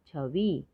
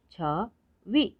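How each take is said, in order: First: Said in the usual way. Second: छवि split slowly as छ, वि; syllable by syllable. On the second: Shown as a demonstration. Teacher sounding out छवि for learners, syllable by syllable. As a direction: pause between the syllables of छवि. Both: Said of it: "तो शब्द पढ़ते हैं".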